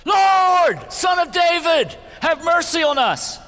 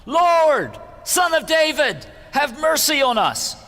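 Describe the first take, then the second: First: Very high, very loud pleading cry; shouting even louder. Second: High, loud desperate cry for mercy; shouting for mercy. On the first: Blind men shouting past the hushing crowd, even louder desperate cry. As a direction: scream it over the crowd, desperate. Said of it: "But they only shouted louder". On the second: Blind men crying out to Jesus by the road, loud pleading shout. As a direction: call out over the crowd, pleading. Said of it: "they began shouting". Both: A narrator's reading.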